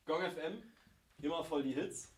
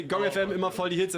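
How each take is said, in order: First: Quiet slogan demo. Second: Upbeat slogan demo. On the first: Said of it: "or you can say". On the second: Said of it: "So you say". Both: Shown as a demonstration.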